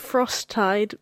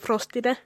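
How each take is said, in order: First: The name is said the standard English way. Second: The name is said in an altered, non-native way. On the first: This is the name's proper form. "It's Frosttide" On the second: This is how non-English speakers used to say it. "we used to pronounce it Frostide because they couldn't speak English"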